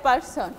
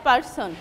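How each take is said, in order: No difference in how they are said.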